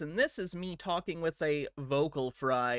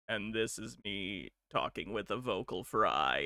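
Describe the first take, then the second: First: The voice is plain, without a creaky fry. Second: The voice is low and creaky with vocal fry.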